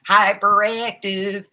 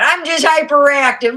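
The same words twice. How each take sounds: First: "Hyperactive" stretched slowly, every syllable leaned on; drawn-out emphasis. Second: Much higher and louder, bursting with energy; excited outburst. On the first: Shown as a demonstration. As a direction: savour "Hyperactive" as a slow punchline. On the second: Real, not acted. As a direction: shout it out like you can't sit still.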